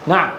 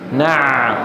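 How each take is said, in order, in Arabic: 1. يُقطع صوت العين فجأة ويتوقف. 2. يستمر صوت العين ويمر عبر مجرى ضيق. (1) "يقطعونها" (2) "صوت العين لا ينقطع، لا ينقطع، لكنه يمر في مجرى ضيق"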